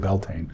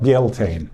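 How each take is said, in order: First: The word is said with a non-Scottish pronunciation. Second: The word is said with a Scottish pronunciation. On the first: "when we say Beltane" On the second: "which is the Scots pronunciation"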